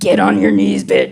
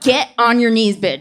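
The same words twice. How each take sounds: First: It is delivered in a creepy, menacing way. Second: It is delivered in a flat, bored way. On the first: "A little less Freddy Krueger" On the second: "A little less D M V"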